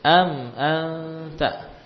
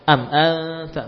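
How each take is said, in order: First: The m is held briefly before the next vowel. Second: The m moves straight into the next vowel. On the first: The speaker calls it right. "Mimnya dialirkan dulu" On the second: The speaker calls it wrong. "am mim sukun jangan langsung pindah ke hamzah. Am anta bukan"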